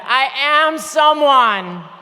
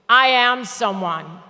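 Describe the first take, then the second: First: It is said with strong conviction. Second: It is said plainly, without special force.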